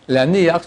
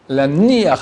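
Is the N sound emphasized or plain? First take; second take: plain; emphasized. First: The N sound is said plainly, without emphasis. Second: The N sound is said with extra emphasis. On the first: It means to put on the tefillin. The speaker calls it right. "sans mettre un accent dans le Nun" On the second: It means to abandon the tefillin. The speaker calls it wrong. "avec accent dans le Nun"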